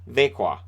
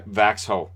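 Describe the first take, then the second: First: The middle has a soft 'k' sound, no 'ks'. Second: The middle has a clear 'ks' sound before 'ho'. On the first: The speaker calls it right. "how do you pronounce this?" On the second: The speaker calls it wrong. "Vaxho would be how I would I would guess it"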